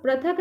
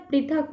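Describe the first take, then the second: First: पृथक said as "prathak", with a short a after the p and no ri sound; wrong pronunciation. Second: पृथक said as "prithak", with a clear ri sound after the p; correct pronunciation. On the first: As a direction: say पृथक wrongly as pra-thak, showing the mistake. (पृथक को गलत "प्रथक" उच्चारण में बोलें) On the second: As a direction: say पृथक correctly as pri-thak, like a teacher correcting a student. (पृथक को सही "प्रिथक" उच्चारण में, ऋ की ध्वनि साफ़ बोलें) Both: Shown as a demonstration. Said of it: "ये बोलने में ही गलत लग रहा है".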